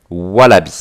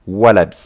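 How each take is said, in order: Both takes have the same delivery.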